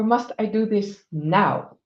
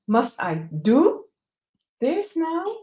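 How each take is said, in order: First: The stress falls on the word now. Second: The stress falls on the word do.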